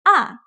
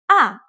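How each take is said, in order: First: The pitch starts high and falls quickly. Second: The pitch starts high and falls quickly.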